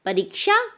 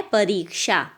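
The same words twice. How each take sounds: First: "परीक्षा" high and rising, short i; wrong version. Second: "परीक्षा" falling, long ee then sha; correct version. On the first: Teacher showing the mistake, "परीक्षा" with short i. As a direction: say "परीक्षा" quickly as parik-sha, lifting the end. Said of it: "परीक्षा गलत है". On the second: Teacher giving the answer, "परीक्षा" with long ee. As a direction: hold the री of "परीक्षा", finish on क्षा. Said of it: "सही क्या है". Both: Shown as a demonstration.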